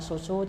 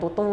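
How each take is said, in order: First: Each syllable starts with an S sound. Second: Each syllable starts with a T sound. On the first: The speaker calls it right. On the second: The speaker calls it wrong.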